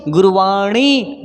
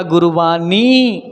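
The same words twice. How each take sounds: First: गुरुवाणी drawn out slowly with curled-tongue ṇ; retroflex ण. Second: गुरुवाणी as "guruvaani", tongue at the teeth; dental न for ण. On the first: Teacher models गुरुवाणी for learners, retroflex ṇ. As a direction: slowly land the ण of गुरुवाणी on the roof of the mouth. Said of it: "ना कि मैंने कहा गुरुवाणी". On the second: Teacher shows the mistake to avoid, गुरुवाणी with dental n. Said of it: "मैंने दांत में touch नहीं करवाया". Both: Shown as a demonstration.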